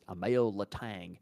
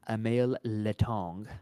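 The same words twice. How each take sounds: First: The name is said with an English accent. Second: The name is said with a French accent. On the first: The speaker calls it wrong. "not just Emile Letang" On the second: The speaker calls it right. "you gotta say it with a French accent"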